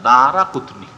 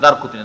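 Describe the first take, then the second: First: An 'a' vowel follows 'dar' before 'qutni'. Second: No vowel follows 'dar' before 'qutni'. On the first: The speaker calls it right. "রায়ে ফাতা দিয়ে পড়তে হবে" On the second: The speaker calls it wrong. "আমার দেশের আলেমরা দারকুতনি দারকুতনি না"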